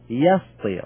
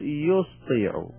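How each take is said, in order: First: The first syllable has the vowel a. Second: The first syllable has the vowel u. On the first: The past form is not a four-letter verb. The speaker calls it right. "بفتح الأول" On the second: The past form would be a four-letter verb. The speaker calls it wrong. "حرف المضارع يضم"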